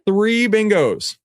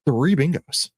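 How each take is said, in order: First: High stretched announcement; slow hype. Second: Said in the usual way. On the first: Shown as a demonstration. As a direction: savour it, slowly. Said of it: "drawn-out hype". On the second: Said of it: "first take".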